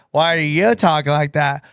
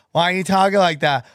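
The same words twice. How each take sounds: First: Low echo of the question; sketch put-on voice. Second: Quick retold question; lightly voiced puzzled barista. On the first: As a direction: lightly imitate the sketch customer, pitched down. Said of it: "You're just doing that vice". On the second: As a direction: ask it briskly, as the barista in a sketch. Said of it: "She goes".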